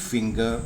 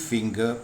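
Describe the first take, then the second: Both takes have the same delivery.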